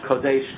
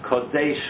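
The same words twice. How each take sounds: First: The first vowel sounds like 'o'. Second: The same.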